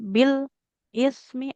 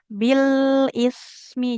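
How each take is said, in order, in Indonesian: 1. Sebuah jeda kecil memisahkan kedua kata. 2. Bunyinya menyambung tanpa jeda. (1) "Ada jeda sedikit nanti seperti sakta" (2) "Jadi bunyi huruf satu dengan huruf lainnya itu menyambung"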